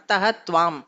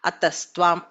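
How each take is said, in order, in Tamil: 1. வார்த்தைகள் பிரிந்துள்ளன, 'tvam' க்கு முன்னால் 'h' ஒலி உள்ளது. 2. வார்த்தைகள் இணைந்துள்ளன, 'tvam' க்கு முன்னால் 's' ஒலி உள்ளது. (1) "அத்தஹ துவான்னு பிரிச்சு சொல்லாம" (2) "அஹ பிகம்ஸ் ச சகாரம்"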